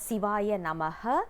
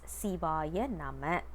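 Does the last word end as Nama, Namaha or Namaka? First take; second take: Namaha; Nama. First: The last word ends with an extra 'ha' syllable. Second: The last word ends plainly with no extra syllable. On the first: It sounds like calling someone's name, not a mantra. The speaker calls it wrong. "We are not supposed to uh, pronounce it as" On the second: It has the effect of a mantra. The speaker calls it right. "it must be said as Sivaya Nama"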